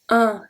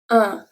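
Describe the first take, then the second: Both takes have the same delivery.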